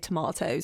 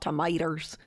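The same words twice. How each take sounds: First: It is said with a British pronunciation. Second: It is said with an American pronunciation. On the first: The speaker calls it right. "supposed to be U K classy and say tomatoes" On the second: The speaker calls it wrong. "not tomatoes"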